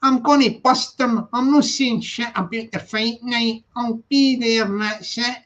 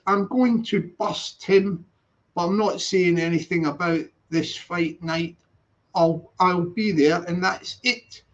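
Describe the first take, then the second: First: Scottish accent. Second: Plain English translation. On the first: Streamer voicing a Scottish boast in broad Scottish accent. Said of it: "I'll do the Scottish accent". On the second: Streamer translating the Scottish line into plain English. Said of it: "then I'll translate that to English". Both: Shown as a demonstration.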